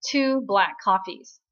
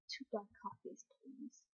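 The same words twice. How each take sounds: First: Slow, louder, curt order; bossy ordering at the counter, louder; firm order. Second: Much softer, defeated echo; meekly repeating his order, very soft; meek, resigned. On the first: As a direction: lay down the order, no arguing. Jung-won orders for both. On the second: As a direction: give in quietly, deflated. Gong Sil meekly gives in. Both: Retold or imitated.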